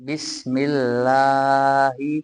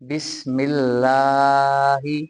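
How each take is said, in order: No difference in how they are said.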